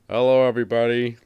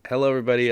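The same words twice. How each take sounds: First: It is said in an imitated, put-on voice. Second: It is said in the speaker's ordinary voice.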